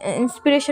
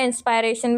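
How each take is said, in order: First: The second syllable has a short 'ih' vowel. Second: The second syllable has an 'eye' vowel. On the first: "इंस्पिरेशन भी बोल रही हूँ मैं" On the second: "इंस्पायरेशन भी बोल सकते हैं"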